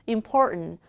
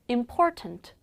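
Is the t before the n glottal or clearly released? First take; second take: glottal; released. First: The t before the n is a glottal stop. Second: The t before the n is clearly released. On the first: "미국 사람들이 빨리 발음할 때 ... 일상회화에선" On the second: "튼 발음도 맞아요"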